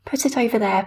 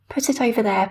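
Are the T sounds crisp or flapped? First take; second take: crisp; crisp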